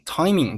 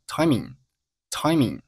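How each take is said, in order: First: Said in the usual way. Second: "timing" ending in n rather than ng; front nasal ending. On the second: Shown as a demonstration. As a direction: slowly model "timing" as "timin". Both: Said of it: "把后鼻音读成了前鼻音".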